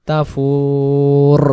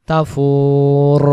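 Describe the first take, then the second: The two takes are said the same way.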